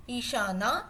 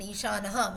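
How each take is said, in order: First: Ishana closing on a long "naa"; long final A. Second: Ishanaha ending in a short "na-ha"; masculine "ha" ending. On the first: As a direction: stretch the final vowel of Ishana and leave it open. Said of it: "When you say as with an akaram". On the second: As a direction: add an aspirated "ha" to close Ishanaha. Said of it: "when we use as Pullingam for Lord Shiva". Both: Shown as a demonstration.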